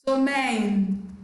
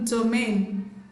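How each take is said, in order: No difference in how they are said.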